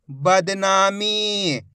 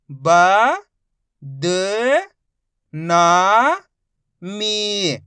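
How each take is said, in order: First: बदनामी said as one smooth word, slowly; blended reading. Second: Each syllable stretched very slowly; slow sounding-out for a child; drawn-out syllables. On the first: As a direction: join it all together. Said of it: "मिला के पढ़ देंगे". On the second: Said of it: "एक एक अक्षर का उच्चारण करके". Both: Shown as a demonstration.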